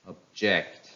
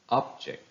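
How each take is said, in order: First: "object" with reduced first syllable, strong JECT; stress on second syllable. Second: "object" with full OB, weaker ending; stress on first syllable. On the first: Teacher reads verbs for practice, "object" stressed on JECT. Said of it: "second part of the word takes". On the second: Teacher reads nouns for practice, "object" stressed on OB. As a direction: say "object" as OB-ject, the noun. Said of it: "How will they sound if they are noun". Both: Shown as a demonstration.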